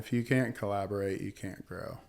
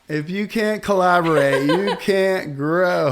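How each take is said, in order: First: It is said at a normal conversational volume. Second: It is said louder, with more force.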